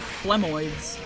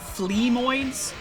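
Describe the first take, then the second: First: The first syllable sounds like 'phlegm'. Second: The first syllable sounds like 'flea'.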